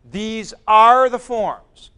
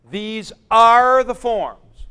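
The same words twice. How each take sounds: First: "are" again held loud and slow; loud slow stress on are. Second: "are" pushed long and loud; loud slow stress on are. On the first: Teacher repeating to class, loud and slow on "are". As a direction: drive "are" home, slowly. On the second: Teacher to class, insisting, loud and slow on "are". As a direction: lean hard on "are", slowly. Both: Shown as a demonstration.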